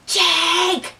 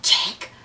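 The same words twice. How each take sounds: First: High, drawn-out call of a name; urgent call. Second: Low-key, whispery call of a name; hushed call. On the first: Calling friend from the stairwell door, high urgent call. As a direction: call out for him, pitched way up. Calling for Jake, second try. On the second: Calling friend from the stairwell door, hushed. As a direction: call him under your breath. Calling for Jake, first try. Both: Retold or imitated.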